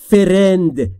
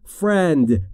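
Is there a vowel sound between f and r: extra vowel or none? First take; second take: extra vowel; none. First: An extra vowel sound separates f and r. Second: F and r join with no vowel between. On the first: The speaker calls it wrong. "نگفتم friend" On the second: The speaker calls it right. "گفتم friend. بین F و R صدایی وجود نداره"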